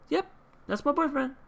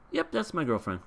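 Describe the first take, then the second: First: Very high-pitched mock girlish affirmation; put-on girlfriend claim. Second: Lightly acted, higher-pitched quick affirmation; unhesitating boyfriend claim. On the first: Rental girlfriend cuts off his confession to grandparents, high put-on claim. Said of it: "she goes ahead and says". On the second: Grandson answers his teasing parents without skipping a beat, lightly acted unhesitating claim. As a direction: play the instant cover story, pitched up. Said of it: "without even skipping a beat, he's just like".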